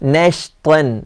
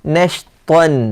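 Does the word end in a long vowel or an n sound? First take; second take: n sound; n sound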